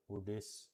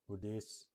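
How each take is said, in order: Both takes have the same delivery.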